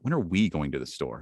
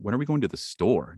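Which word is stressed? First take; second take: we; store. First: The stress falls on the word we. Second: The stress falls on the word store. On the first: The question is about who is going. "Now it's about us" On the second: The question is about the place being visited. "Now it's about that awesome place"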